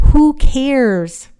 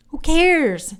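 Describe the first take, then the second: First: Loud, high, scoffing brush-off; mock-exasperated who-cares; dismissive. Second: Higher, lighter shrug of a who-cares; breezy second brush-off; dismissive repeat. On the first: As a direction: wave the whole thing away with a scoff. Dismissing her named purse. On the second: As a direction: toss it off, already over it. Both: Real, not acted.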